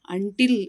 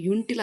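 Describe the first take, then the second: First: ಅಂಟಿಲ್ opening on a short "uh", slow and loud; correct "un-" pronunciation. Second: ಯುಂಟಿಲ್ opening on "yoon" instead of "un"; mistaken "yoon-" pronunciation. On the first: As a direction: teach ಅಂಟಿಲ್ with "un", never "yoon". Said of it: "ಆದರೆ ಯುಂಟಿಲ್ ಅನ್ನೋಕೆ ಹೋಗಲ್ಲ". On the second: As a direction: show the error ಯುಂಟಿಲ್, starting with "yu". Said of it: "ಯುಂಟಿಲ್ ಅನ್ನೋಕೆ ಹೋಗಲ್ಲ". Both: Shown as a demonstration.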